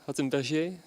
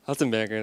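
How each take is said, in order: First: The name is pronounced the French way. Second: The name is pronounced the German way. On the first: The speaker calls it wrong. "Is it the French pronunciation?" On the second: The speaker calls it right. "the German one. Okay. Hattenberger, then"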